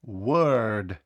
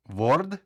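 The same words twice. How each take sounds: First: Word said with an e-like vowel, "wörd", falling. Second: Word? with a full round o, rising; wrong round o. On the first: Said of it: "Більше схоже на звук Е". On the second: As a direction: ask Word? with a plain o, as a wrong guess. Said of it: "Ні". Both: Shown as a demonstration.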